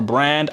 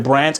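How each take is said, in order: First: The name ends with a D sound. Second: The name ends with a T sound. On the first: "pronounce the D" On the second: "pronounce the T"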